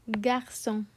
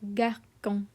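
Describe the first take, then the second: First: The middle consonant is a soft S sound. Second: The middle consonant is a hard K sound. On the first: "because it has sidai, it is pronounced as garçon" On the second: "If this word didn't have the hook, it would be pronounced garcon"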